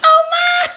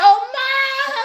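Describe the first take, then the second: First: Very high, loud mock shriek of shock; shrieked surprise. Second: High, gasping mock surprise. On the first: Viewer seeing her bank balance, very high, loud mock shriek. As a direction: scream it like the bank balance floored you. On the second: Picturing the viewer at the bank, high mock surprise. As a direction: squeak it like a stunned client. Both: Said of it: "you gonna be like".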